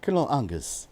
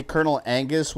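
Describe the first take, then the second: First: Badly faked British "Colonel Angus"; broad "ah" in Angus, amateur British accent; attempted British accent. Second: Said in the usual way. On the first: Shown as a demonstration. Streamer obliging the chat, clumsy British accent. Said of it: "I can't do a British accent". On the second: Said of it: "with a British accent".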